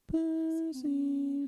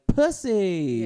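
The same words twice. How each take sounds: First: It is said in a sad, mournful way. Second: It is said in a wild, excited way.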